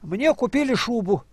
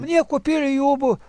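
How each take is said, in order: First: The last word begins with a sh sound. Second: The last word begins with a y sound. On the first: The speaker calls it right. "скажи так" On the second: The speaker calls it wrong. "А он не может"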